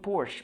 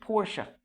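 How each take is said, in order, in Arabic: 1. الاسم بينتهي على صوت 'sh'. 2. الاسم بينتهي بزيادة صوت 'a'. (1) "هي مش المفروض بورش" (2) "المفروض بورشا"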